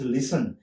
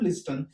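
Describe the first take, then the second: First: No t sound is heard before the n. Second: A t sound is heard before the n. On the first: The speaker calls it right. "It is लिसन" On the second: The speaker calls it wrong. "But it is not लिस्टन"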